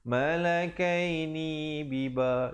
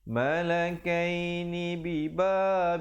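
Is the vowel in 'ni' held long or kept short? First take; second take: long; short. First: The vowel in 'ni' is drawn out long. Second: The vowel in 'ni' is kept short. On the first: The speaker calls it wrong. "kedengaran ni itu dua harakat. Salah ya" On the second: The speaker calls it right. "ni nak ke biba itu jangan lambat"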